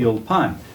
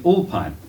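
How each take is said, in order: First: The stress is on the last syllable. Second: The stress is on the first syllable. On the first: This is how the word is said in Hebrew. "they usually accent the last syllable" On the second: This is how an English speaker says the word. "you feel like saying Ulpan"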